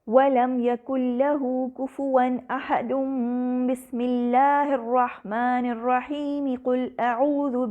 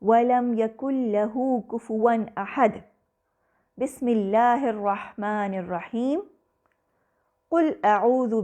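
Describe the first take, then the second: First: Everything runs together in one breath without pauses. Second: There are breath pauses before and after the basmala. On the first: All three parts are joined together. "तीनों को एक साथ मिलाकर पढ़ा गया" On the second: Each part is recited separately. "आखिरी आयत के बाद सांस लिया, बसमला पढ़ा, फिर सांस लिया"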